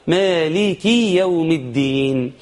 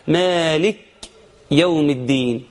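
First: مالك as "maaliki", joined slowly to the next word; correct voweled kaf. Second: مالك cut off on a bare "k", then a break; silent kaf error. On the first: Teacher says few get it right, مالك with "ki". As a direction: give مالك a short "i" after k, flowing on. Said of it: "قل من يقول". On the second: Teacher imitates a common mistake, مالك with vowelless kaf. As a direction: say مالك as "maalik", no vowel after k. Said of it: "اللي يحصل سكون الكاف". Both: Shown as a demonstration.

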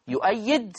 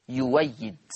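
First: يؤيد with the glottal stop kept; hamza in يؤيد. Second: يويد with w in place of the glottal stop; waw replacing hamza. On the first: Teacher giving the original word, hamza kept in يؤيد. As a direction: sound the hamza clearly in يؤيد. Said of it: "هتبدل واو مفتوحة". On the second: Teacher showing Warsh's reading, hamza turned to waw in يويد. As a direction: glide through the waw in يويد. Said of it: "هتبدل واو مفتوحة نحو كلمة". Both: Shown as a demonstration.

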